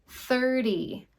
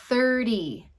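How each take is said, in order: The two takes are said the same way.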